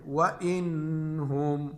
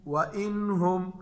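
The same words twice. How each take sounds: First: "व इन हुम" with a long hummed n; wrong ghunna. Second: Slow "व इन हुम", clear n without nasal hum; izhar recitation. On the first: Teacher shows students how not to read it, nasal held n in "व इन हुम". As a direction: drag "इन" through the nose before "हुम". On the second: Teacher explains noon sakin to students, clear n in "व इन हुम". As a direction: sound "इन" cleanly, then "हुम". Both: Shown as a demonstration. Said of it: "इस तरह नहीं पढ़ेंगे".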